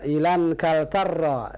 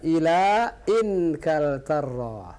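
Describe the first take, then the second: First: The words run together with no glottal break. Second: A glottal break separates the two words. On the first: The speaker calls it wrong. "Kalau seandainya tidak ada hamzah ... Langsung ilan" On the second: The speaker calls it right. "karena di sini ini hamzah qata ... maka dibaca"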